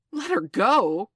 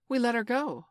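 First: Slow, loud, incredulous shout; outraged cry. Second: High, self-satisfied report; complacent. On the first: Hook hearing the captive was freed, crying out. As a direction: shout it back in disbelief. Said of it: "cried Hook". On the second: Smee telling Hook of the release, complacent. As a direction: report it as a job done. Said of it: "Smee answered complacently". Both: A narrator's reading.

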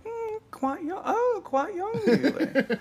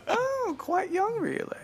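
First: Put-on high, airy old-lady voice, much higher; Miss Slocum imitation. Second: Put-on high, slow prim old-lady voice; Miss Slocum imitation. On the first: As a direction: do a prim old lady, pitched way up. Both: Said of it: "he was like".

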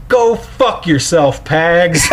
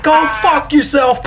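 First: Slow, slightly higher mock yell; drawn-out retold shout at the catcher. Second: Mock shout, much higher. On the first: Dad at the game telling off Pags, a mild mock yell. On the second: Dad in front of the kids yelling at Pags, a hammed-up shout. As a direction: yell it across the dugout. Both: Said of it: "Just shouts it".

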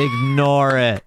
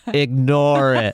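First: Slow, unbothered brush-off; slow lazy brush-off; offhand dismissal. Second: Slow, detached voice from nowhere; slow eerie off-screen voice; disembodied voice. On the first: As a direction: wave it away without looking up. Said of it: "he's like". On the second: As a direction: drag the words out like a distant off-screen voice. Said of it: "hear a dismembered voice say". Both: Retold or imitated.

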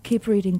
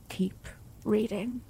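First: Said in the usual way. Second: Slow, hushed Keep reading; slow soft urging. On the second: Acted. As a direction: Keep reading said slowly and much softer. Lover urging her on.

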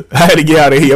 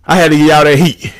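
First: Fast, laughing repeat. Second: Said in the usual way. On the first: Real, not acted. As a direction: laugh it off quickly.

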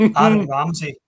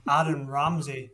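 First: Loud, dramatic reveal of the name; big announcement. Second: Slowed down, letting the name land; slow emphatic repeat. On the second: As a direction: repeat the name slowly for effect. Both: Real, not acted. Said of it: "strap yourselves in".

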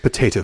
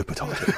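First: "Potato" as po-TAY-to; American pronunciation. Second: "potato" as po-TAH-to; British-style pronunciation. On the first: Host caps the co-host's joke, "Potato" as po-TAY-to. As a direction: say "Potato" with a long "ay". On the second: Host caps the co-host's joke, "potato" as po-TAH-to. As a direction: say "potato" with an open "ah". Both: Shown as a demonstration. Joking over two pronunciations.

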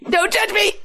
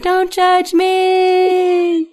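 First: Quick, very high-pitched mock yelp; mock scream. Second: Long, high-pitched comic wail; drawn-out mock scream. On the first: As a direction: blurt it out in a high, panicky squeal. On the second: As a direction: stretch the last word into a wailing scream. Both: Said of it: "I'm just screaming in the background".

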